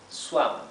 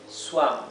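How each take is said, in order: The two takes are said the same way.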